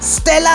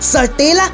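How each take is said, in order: First: The s and t are said together, no vowel. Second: A vowel is inserted between the s and t. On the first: The speaker calls it right. "स्टेला है वो।" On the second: The speaker calls it wrong. "इन्होंने ये क्या बोला?"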